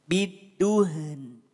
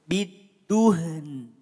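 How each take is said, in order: No difference in how they are said.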